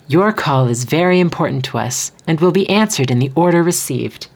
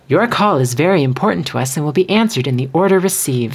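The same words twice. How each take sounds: First: The sentence has a pause between its two halves. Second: The sentence runs on quickly without a middle pause. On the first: The speaker calls it right. "Put a pause between the two, like, independent sections" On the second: The speaker calls it wrong. "Don't rush that"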